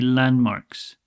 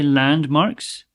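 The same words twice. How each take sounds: First: The d sound in the middle is dropped. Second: The d sound in the middle is pronounced. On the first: "if you're speaking a little bit quickly, you might say" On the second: "you could say landmarks"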